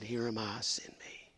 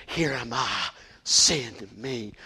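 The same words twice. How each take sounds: First: Soft, breathy whispered surrender; hushed whisper. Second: Said in the usual way. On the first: Acted. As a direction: let it fall to a whisper, almost a prayer. Quoting Isaiah, hushed.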